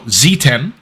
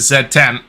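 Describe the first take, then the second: First: The letter Z is said the American way. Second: The letter Z is said the non-American way.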